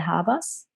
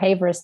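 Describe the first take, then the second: First: The surname is said with a German pronunciation. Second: The surname is said with an English pronunciation. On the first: "the German pronunciation would be" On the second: "if you go for Havers, that's totally fine"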